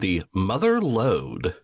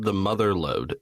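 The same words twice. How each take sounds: First: Mother and lode are split as two words. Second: Mother lode runs together as one word.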